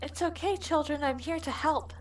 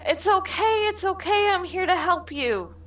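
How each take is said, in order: First: Hushed, higher soothing voice; calm the little ones softly; soft reassuring. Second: High, bright coaxing reassurance; eager reassuring. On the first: Frida soothing the children. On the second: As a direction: coax the child, pitched up. Frida approaching the child. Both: Acted.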